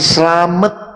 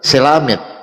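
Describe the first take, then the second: First: It is said the Javanese way, as Slamet. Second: It is said the Papuan way, as Selamet.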